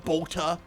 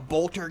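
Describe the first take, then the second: First: It is said with a Cockney dropped final r. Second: It is said with a plain final r.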